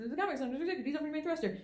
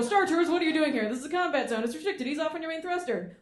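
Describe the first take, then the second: First: Softer, muttered repeat of the order; quieter repeat. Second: Higher, brisk radio order; X-Wing pilot command. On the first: Shown as a demonstration. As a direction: say it again under your breath. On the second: Retold or imitated. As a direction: order them off firmly. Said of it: "and they go".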